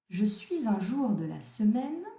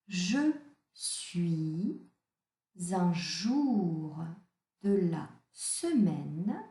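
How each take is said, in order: First: It is read at a quicker pace. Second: It is read at a slower pace.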